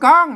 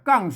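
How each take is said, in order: First: The syllable is said with the tri tone. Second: The syllable is said with the tho tone. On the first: "กังนะครับเสียงตี" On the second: "กังเสียงโทโทปกติหรือโทไทย"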